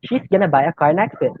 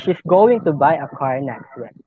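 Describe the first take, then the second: First: 'Going to' is reduced to 'gonna'. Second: 'Going to' is said in full.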